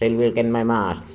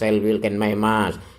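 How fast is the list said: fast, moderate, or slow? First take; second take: fast; moderate. First: The words are said very quickly. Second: The words are said fairly quickly. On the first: "Tiga kali yang terakhir dibaca cepat" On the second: "yang kedua agak cepat"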